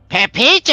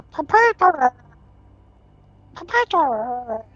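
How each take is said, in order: First: High, very loud cry of a name; excited shout. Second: High, bubbling muffled call; underwater voice. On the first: Pepito spots the other Grom, excited shout. Character calls to his double. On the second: Tumor inside the tube calls out, underwater voice. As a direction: call out as if through water, drawn out at the end. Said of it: "as if underwater". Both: Acted.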